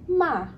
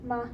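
First: The pitch falls sharply from high. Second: The syllable is light with no tone. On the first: "fourth tone" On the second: "fifth tone, which is like no tone"

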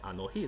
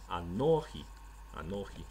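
First: The stress is on the last syllable. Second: The stress is on the middle syllable. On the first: "理论上说应该是Anohi 才对" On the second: "他把这个重音往前一提，提到了no 这个地方"

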